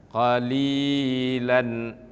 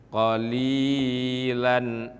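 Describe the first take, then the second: Both takes have the same delivery.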